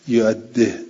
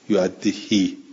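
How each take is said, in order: First: The final vowel is only half pronounced. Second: The final vowel is fully drawn out. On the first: "یه جوری که هم این کسره هم گفته بشود و گفته نشود، اینجوری ها" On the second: "بقیه چی قرائت کرده؟ یعدهی اینجور"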